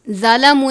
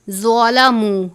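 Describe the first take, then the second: First: The z sound is light and thin. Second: The z sound is heavy and full. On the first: The speaker calls it wrong. "इसको ज़ा की तरह नहीं पढ़ना, यानी ज़ालामू नहीं पढ़ना" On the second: The speaker calls it right. "ज़्वा को पुर पढ़ते हैं ... बल्कि ज़्वालामू"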